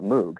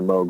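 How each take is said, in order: First: The vowel is 'oo', as the spelling suggests. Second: The vowel is 'oh', rhyming with 'rogue'. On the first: This is how the spelling suggests it is said. The speaker calls it wrong. "the temptation is to call it Moog. That's what it looks like" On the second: This is the company's pronunciation. The speaker calls it right. "The whole point was it for you know for it to rhyme"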